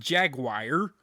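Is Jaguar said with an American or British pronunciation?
American. The word has an American pronunciation. The speaker calls it wrong. "It's not Jaguar"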